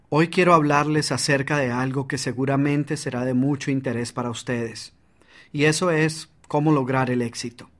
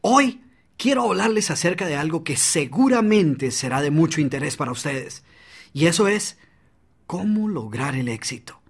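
First: Even, unvaried delivery with no energy; flat monotone. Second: Varied pitch and volume with pauses; dynamic delivery. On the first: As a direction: read it flat and lifeless. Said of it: "en lugar de esto dijeras". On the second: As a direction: sell it with energy and emphasis. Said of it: "cambió fue el volumen, la entonación y la velocidad". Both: Shown as a demonstration.

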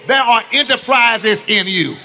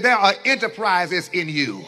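First: Louder, urgent declaration to a neighbor; preacher pushing the crowd to tell a neighbor, loudly; emphatic, louder. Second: Said in the usual way. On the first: Shown as a demonstration. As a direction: grab them and tell them like it matters. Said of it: "No, no, grab 'em". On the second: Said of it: "Grab somebody and say".

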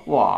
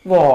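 First: หวอ with a dipping third tone; correct third tone. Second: หวอ read as others write it, loud; misread third tone. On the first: Teacher showing how it really sounds, correct third tone. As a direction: let หวอ dip, then rise. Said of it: "จริงมันออก". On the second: Teacher quoting others' misleading spelling, misread third tone. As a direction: say หวอ loudly, as misleadingly spelt. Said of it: "เพิ่นว่า". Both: Shown as a demonstration.

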